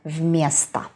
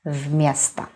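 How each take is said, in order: First: The first vowel sounds reduced, like a. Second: The first vowel sounds reduced, like a.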